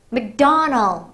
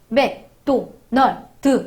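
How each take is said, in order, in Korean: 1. 영어식으로 말해요. 강세가 강해요. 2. 한국식으로 평평하게 말해요. 강세는 없어요. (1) "그 사람들이 뭐라고 발음하죠? 아, 맥도날드 이라고 발음하네요" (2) "다시 한번 더 정확하게 얘기해 주죠"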